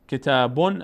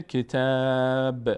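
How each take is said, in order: First: کتابون ending in a full "bun"; tanwin sounded. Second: کتاب with a long held aa closed on a bare b; final sukun. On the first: Teacher shows the word with tanwin, ending sounded. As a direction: say کتابون with the final "-un" voiced. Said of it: "تنوین اگه تنوین اون بود". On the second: Teacher shows stopping on the word, final sukun. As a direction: stretch کتاب and drop the "-un". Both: Shown as a demonstration.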